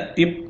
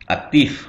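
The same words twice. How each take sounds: First: The word ends with a p sound. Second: The word ends with an f sound. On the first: The speaker calls it wrong. "bukan lagi aktif" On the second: The speaker calls it right.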